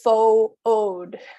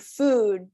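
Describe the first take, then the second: First: The word is split into two syllables. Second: The word is said as one syllable. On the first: The speaker calls it wrong. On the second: The speaker calls it right.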